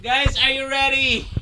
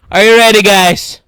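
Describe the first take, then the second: First: Soft, held-back question; hushed build-up. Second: Loud, lower-pitched call; loud announcement. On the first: Streamer priming viewers before reveal, hushed. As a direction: ask it quietly, holding back. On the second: Streamer announcing the reveal to viewers, loud. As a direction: call it out forcefully. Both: Real, not acted.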